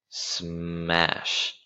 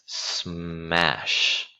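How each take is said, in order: The two takes are said the same way.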